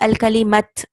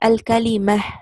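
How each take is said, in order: First: The word ends with a t sound. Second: The word ends with a soft h sound. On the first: The speaker calls it wrong. "I don't say al kalimat" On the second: The speaker calls it right. "I'll stop with a small ha"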